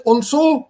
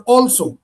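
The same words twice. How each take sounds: First: "also" as al-SO; stress on second syllable. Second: "also" as AL-so; stress on first syllable. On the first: Teacher asks which is right, "also" stressed at the end. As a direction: lean on SO in "also". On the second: Teacher gives the other option, "also" stressed at the front. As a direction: hit AL in "also". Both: Shown as a demonstration. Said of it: "the place of the stress".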